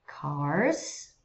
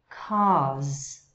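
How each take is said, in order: First: "Cars" with a clear curled R; American "Cars". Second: "cars" with no R, vowel held; British "cars"; British dropped R. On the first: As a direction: roll the tongue back on the R of "Cars". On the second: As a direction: leave the R out of "cars". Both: Shown as a demonstration. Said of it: "Notice the difference".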